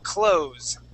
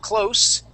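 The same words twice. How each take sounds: First: The word ends with a buzzing z sound. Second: The word ends with a hissing s sound. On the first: It is the verb meaning to shut. "that has a voiced S" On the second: It is the adjective meaning near. "voiceless S"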